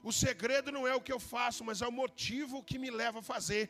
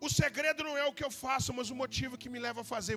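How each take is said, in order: First: It is said slowly. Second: It is said at normal speed.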